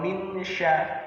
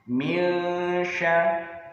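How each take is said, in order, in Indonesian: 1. Bunyi n dibaca dengan jelas. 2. Bunyi n dibaca samar seperti dengung sengau. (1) "bukan min sa atau min sya" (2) "Huruf nunnya tidak dibaca jelas, melainkan samar"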